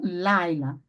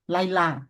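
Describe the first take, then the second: First: The stress is on the first syllable. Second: The stress is on the last syllable. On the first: The speaker calls it right. "a sílaba tônica está no início" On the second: The speaker calls it wrong. "Se eu falar lailá, a sílaba tônica eu puxei para o final. E não é assim"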